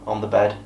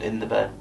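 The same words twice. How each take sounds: First: "on" set apart after a pause, as a correction; stress on on. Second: Said in the usual way. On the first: Real, not acted. Correcting his account of the bedroom, stressing "on". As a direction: correct yourself with extra weight on "on".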